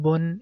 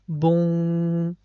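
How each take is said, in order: First: The final n sound is clearly pronounced. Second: The n merges into a stretched nasal w-like sound. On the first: "instead of saying bun" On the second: "it becomes boom. We have to connect it with wow and we have to stretch this sound"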